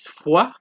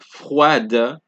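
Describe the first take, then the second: First: The final D is silent. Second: The final D sound is pronounced. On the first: The speaker calls it right. "It is froid" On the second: The speaker calls it wrong. "it's not froide"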